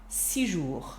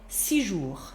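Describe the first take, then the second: First: The s sound of six is dropped. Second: The same.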